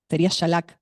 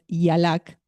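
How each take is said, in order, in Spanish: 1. El primer sonido no suena como la vocal i. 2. El primer sonido suena como la vocal i. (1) "con Y, sería Shalak" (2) "pero en hebreo es Yalak"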